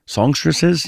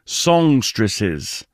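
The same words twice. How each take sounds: First: "Songstresses?" asked with a doubtful rising tune; "Songstresses?" queried back to himself, unsure of the word; questioning the word. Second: Said in the usual way. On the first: Real, not acted. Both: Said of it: "Yeah, you can say that".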